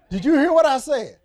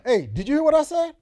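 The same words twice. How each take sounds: First: High, loud laughing scold; grandmother scolding through laughter. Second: High, loud scolding grandma; grandmother scolding. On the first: Preacher replaying grandmother's scold, laughing and loud. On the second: Preacher imitating his grandmother scolding him, high and loud. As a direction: call out like an annoyed grandmother. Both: Retold or imitated. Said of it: "my grandmother".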